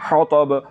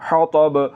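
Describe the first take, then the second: No difference in how they are said.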